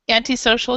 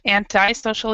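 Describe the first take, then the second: First: It is said with a British pronunciation. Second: It is said with an American pronunciation. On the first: "Antisocial is British" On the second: "antisocial is American"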